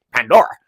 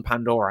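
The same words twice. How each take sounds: First: Pandora! called out louder with a rising end; mock excited exclaim. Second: Said in the usual way. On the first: Reviewer playfully exclaiming the planet's name, louder rising call.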